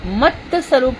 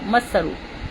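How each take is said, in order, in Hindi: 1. 'mat' का 't' एक पूरे स्वर पर खत्म होता है। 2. 'mat' के 't' के बाद कोई स्वर नहीं है। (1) "मत का जो अ, सुबह प्रोनाउंसिएशन हुआ है ना, वो मत स्वरूप हो गया" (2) "वो हलंत वाला मत था"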